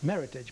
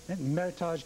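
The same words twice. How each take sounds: First: The ending sounds English, like heritage. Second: The ending sounds French, like garage. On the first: This is the name the winemakers intended. "they came up with Meritage" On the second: This is the name most people use. "it's kind of a French-sounding"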